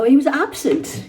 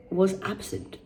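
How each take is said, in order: First: He was absent leaned on hard and slow, pitched up; judgmental reading. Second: Said in the usual way. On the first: Shown as a demonstration. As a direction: read "he was absent" as a harsh verdict. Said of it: "You see how I prejudged there". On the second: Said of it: "'cause I didn't read the full sentence".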